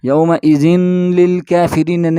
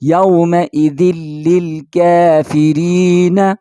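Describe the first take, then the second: First: The n sound is said before the l. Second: The n sound merges directly into the l. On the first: The speaker calls it wrong. "नहीं पढ़ेंगे" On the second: The speaker calls it right. "बल्कि यौमइदिल इसके साथ डायरेक्ट मिला के पढ़ेंगे"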